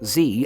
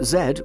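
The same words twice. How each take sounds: First: The letter is said the American way, 'zee'. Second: The letter is said the British way, 'zed'.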